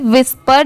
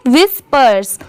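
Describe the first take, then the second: First: विस्पर without the final "s"; विस्पर, final sibilant left off; incomplete reading. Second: विस्पर्स with the final "s" sounded; विस्पर्स, ending in a clear "rs"; full reading. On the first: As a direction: say विस्पर ending on the "r". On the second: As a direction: say विस्पर्स right through to the "s". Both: Shown as a demonstration. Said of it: "सिर्फ विस्पर नहीं पढ़ेंगे".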